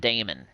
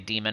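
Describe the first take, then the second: First: It is said like the name Damon. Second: It is said like the word demon. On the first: It is a man's name, as if a man invented them. "I want to call them Damon because it's a dude" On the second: It is the usual word for an evil spirit. "Zig says that word is pronounced demon"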